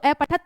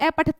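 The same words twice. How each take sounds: First: The final t is bare, with no vowel after. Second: The final t is followed by a full vowel. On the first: The speaker calls it right. "जब हलंत है तो आधा बोलेगा" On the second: The speaker calls it wrong. "नहीं कहना है, त बोलोगे तो आपका पूरा स्वर जुड़ा हुआ है"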